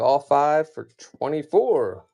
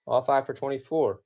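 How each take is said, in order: First: Slow, louder auction call; closing bid, stretched out slow; slow announce. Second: Said in the usual way. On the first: Real, not acted. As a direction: draw out the final price for the buyers.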